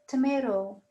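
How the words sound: It is said with an American English accent. This is how Americans say it. "American would say tomato"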